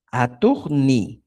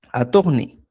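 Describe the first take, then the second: First: "Aturni" slowly, with "ni" set apart; syllable by syllable. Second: Said in the usual way. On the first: Shown as a demonstration. Teacher adding the auxiliary ni, syllable by syllable. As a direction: draw out "Aturni" part by part. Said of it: "el auxiliar ni". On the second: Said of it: "mira, fíjate".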